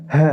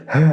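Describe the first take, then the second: Both takes have the same delivery.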